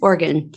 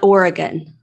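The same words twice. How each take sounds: First: The word is said with only two syllables. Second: The word is said with more than two syllables. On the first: The speaker calls it right. "It's like two syllables" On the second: The speaker calls it wrong. "Not Oregon?"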